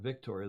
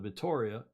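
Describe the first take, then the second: First: A k sound comes before the t. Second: No k sound comes before the t. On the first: The speaker calls it wrong. "not Victoria" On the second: The speaker calls it right. "the Vitoria"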